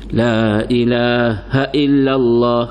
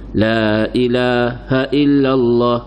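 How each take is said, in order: First: The vowel in 'ha' is kept short. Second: The same.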